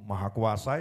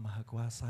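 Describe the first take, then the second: First: The phrase is said loudly and forcefully. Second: The phrase is said softly and weakly. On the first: It conveys the greatness of the Almighty. The speaker calls it right. "yang ngomongnya ya sing banter" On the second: It fails to convey greatness. The speaker calls it wrong. "ya ora cetha"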